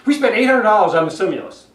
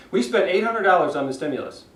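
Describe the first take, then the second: First: Fast and loud with no shape, stressing We; hurried sentence with the emphasis stuck on We; Santorum's rushed delivery. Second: A slowed version that stays monotone; slowed-down flat read. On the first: Retold or imitated. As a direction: rattle it off in one rushed breath like Santorum. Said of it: "the way Santorum just said it". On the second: Shown as a demonstration. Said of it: "Even if he slowed down".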